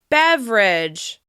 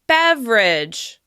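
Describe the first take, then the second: First: The word is said with two syllables. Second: The same.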